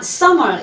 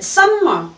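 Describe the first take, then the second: First: A single m sound joins the two syllables. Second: An m closes the first syllable, then another m. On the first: The speaker calls it right. "summer 이래야 되죠" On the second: The speaker calls it wrong. "summer 한 것도 같은 오류입니다"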